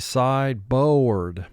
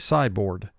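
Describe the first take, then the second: First: The second syllable is exaggerated and fully pronounced. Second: The second syllable is said in a relaxed way. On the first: This helps to remember the spelling. "But for spelling, we say sideboard" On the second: This is how it sounds in everyday talk. "in conversation, we just say sideboard"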